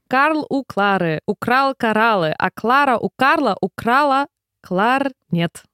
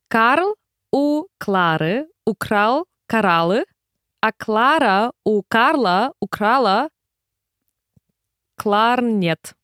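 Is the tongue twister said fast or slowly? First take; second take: fast; slowly. First: It is said quickly, at a rapid pace. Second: It is said at a slow, careful pace.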